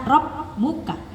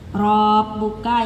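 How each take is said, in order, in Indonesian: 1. Vokal pertama dibiarkan pendek. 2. Vokal pertama ditahan terlalu panjang. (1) "yang harusnya rob buka" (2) "Itu kepanjangannya banyak sekali"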